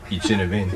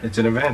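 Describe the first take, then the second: First: It is said with a French accent. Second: It is said in the speaker's plain accent.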